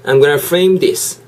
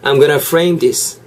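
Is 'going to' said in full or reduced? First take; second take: reduced; reduced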